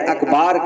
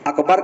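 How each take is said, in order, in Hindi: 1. b के बाद का स्वर लंबा है। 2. b के बाद का स्वर छोटा है। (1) "बा के बाद अलिफ को बढ़ा दिया" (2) "अकबर कहने के बजाय"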